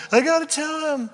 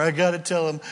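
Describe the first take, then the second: First: Much higher, straining to burst out; can't hold it in any longer; bursting urgency. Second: Said in the usual way. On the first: Acted. Joseph can't hold back.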